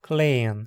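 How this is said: The vowel is a single long e. This is the Hunsrik form. "por fim em Hunsrickiano"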